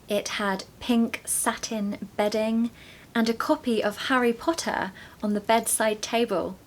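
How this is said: It is spoken in a British accent. "this creates the music of the British accent"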